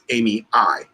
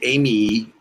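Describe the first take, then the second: First: The name ends with an eye sound. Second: The name ends with an ee sound. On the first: The speaker calls it right. "because the A E is pronounced I" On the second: The speaker calls it wrong. "you wouldn't say Amy"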